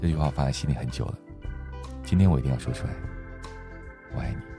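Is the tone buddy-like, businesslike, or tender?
tender. It sounds soft, open and tender.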